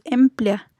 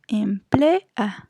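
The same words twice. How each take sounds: First: "emplea" in two syllables, em-plea; "emplea" ending in a glided plea; vowels run together. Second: "emplea" slowly in three syllables, em-ple-a; "emplea" drawn out as em, ple, then a; split hiatus. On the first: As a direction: say "emplea" with the final ea in one beat. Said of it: "no decimos emplea". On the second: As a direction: say "emplea" slowly, the final a on its own. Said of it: "decimos emplea". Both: Shown as a demonstration.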